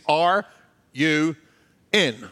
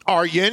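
First: The phrase is said slowly, word by word. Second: The phrase is said quickly, run together.

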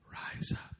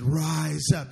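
First: It is said in a whisper. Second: It is said loudest of all.

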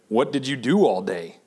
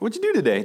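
First: It sounds accusing and critical. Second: It sounds curious and friendly.

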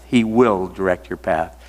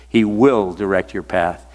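Both takes have the same delivery.

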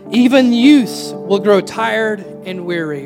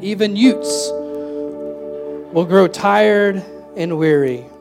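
First: It is said in the speaker's normal accent. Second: It is said in a put-on, imitated accent.

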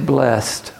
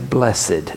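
First: The word is said in a plain everyday way. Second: The word is said in a churchy, formal way. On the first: "we can't even say blessed" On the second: "we have to say blessed ... they have a churchiness to them"

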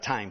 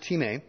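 First: It sounds like the English word time. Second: It sounds unlike the English word time. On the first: The speaker calls it wrong. "if you look it on paper, it looks like time" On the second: The speaker calls it right. "But it's pronounced time"

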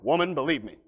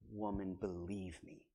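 First: It is said in a stern, forceful way. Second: It is said in a soft, gentle way.

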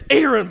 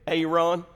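First: The name is said the standard way. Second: The name is said the South Georgia way.

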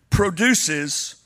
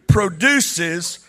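Both takes have the same delivery.

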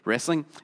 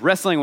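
First: It is said imitating the Northern pronunciation. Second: It is said in the speaker's own Southern way.

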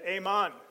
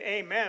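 First: The second syllable sounds like 'mon'. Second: The second syllable sounds like 'men'. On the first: The speaker calls it wrong. "I said amon" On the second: The speaker calls it right. "instead of saying amen"

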